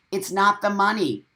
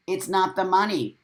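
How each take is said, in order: Both takes have the same delivery.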